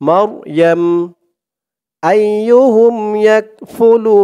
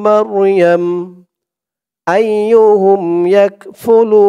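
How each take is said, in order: No difference in how they are said.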